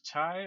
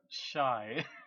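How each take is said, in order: First: The word begins with a 'ch' sound. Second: The word begins with a 'sh' sound. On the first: "can't tell if it's chai or shy" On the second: "can't tell if it's chai or shy"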